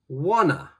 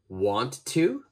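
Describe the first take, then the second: First: The words are blended into a reduced form. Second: Both words are said fully and separately.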